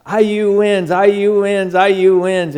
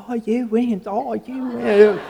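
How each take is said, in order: First: Raised, louder triumphant chant of the score; excited text. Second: Put-on high Australian-accented robotic assistant voice; Australian Siri lady. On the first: Retold or imitated. Friend texting the pastor the game result, excited cheer. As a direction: cheer the win like a fan reading his own text. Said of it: "And he gets to". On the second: Siri in the truck reading Dave's text, Australian accent. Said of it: "there's this Australian lady going".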